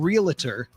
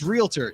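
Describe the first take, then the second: First: The word is said with three syllables. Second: The word is said with two syllables. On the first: The speaker calls it wrong. "It's not realtor ... it's not a real a tour" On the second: The speaker calls it right. "It's realtor"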